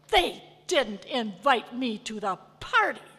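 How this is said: It sounds furious and angry.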